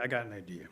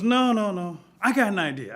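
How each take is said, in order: First: Low, soft scheming aside; lowered repeat. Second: High, loud burst of an idea; excited interruption. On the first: Thunder mulling his new idea, hushed. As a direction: drop the voice as the plan forms. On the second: Thunder rejecting small sticks with a new idea, excited. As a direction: cut in eagerly, voice raised. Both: Acted.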